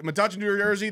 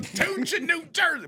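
First: Said in the usual way. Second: High-pitched ring announcer echo; mock announcer. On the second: Echoing his co-host's plug, high mock announcer call. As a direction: sing out the town high, like an announcer.

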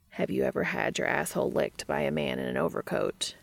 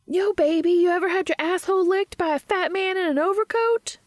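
First: Mildly deadpan, measured question; calm questioning. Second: Loud, high-pitched movie-character holler; Jay. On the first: Cass turns to Dean and asks, calm and even. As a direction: ask it evenly, as if perfectly reasonable. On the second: Jay on screen propositions someone in the movie, loud high holler. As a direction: belt it out way up high, brashly. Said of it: "the character of Jay says". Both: A narrator's reading.

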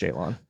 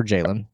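First: Jalon with a full "lon" ending; Jalon, second syllable rhyming with "on"; JAY-lon pronunciation. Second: Jalen with a reduced second syllable; Jalen, ending unstressed like "lin"; JAY-lin pronunciation. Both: Shown as a demonstration. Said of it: "Is that how it's pronounced?".

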